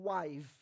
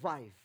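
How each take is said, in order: First: The word begins with a W sound. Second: The word begins with a V sound. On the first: "Instead of calling wife" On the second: "he called wife, because that's the Eastern way"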